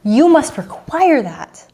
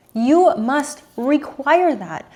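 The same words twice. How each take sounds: First: Must hit high and held, slow; you must require that, firm and drawn out; stress on must. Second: You hit high, whole line slow; You must require that, slow and insistent; stress on You. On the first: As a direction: lean hard on the word must, slowly. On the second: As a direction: press on the word You and drag it out. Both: Retold or imitated. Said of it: "And I'm like".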